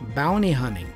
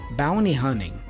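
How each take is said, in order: First: The T sounds are dropped. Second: The T sounds are dropped.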